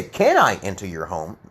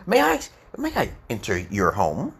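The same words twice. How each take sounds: First: Matter-of-fact asking, stress on "Can"; less emotional request. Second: A deferential request with swooping pitch; passive, heartfelt politeness. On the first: Teacher contrasting can with may, less emotional request. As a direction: ask it with less feeling and less deference. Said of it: "not as emotional". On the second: Teacher showing how to ask to enter a home, passive and emotional. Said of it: "you're being very passive and legit". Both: Shown as a demonstration.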